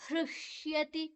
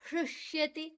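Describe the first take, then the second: The two takes are said the same way.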